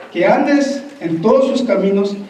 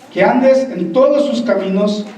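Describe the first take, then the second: Both takes have the same delivery.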